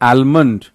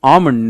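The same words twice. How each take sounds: First: An l sound is heard in the word. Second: No l sound is heard in the word. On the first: The speaker calls it wrong. "not almond" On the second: The speaker calls it right. "so that is almond; L silent"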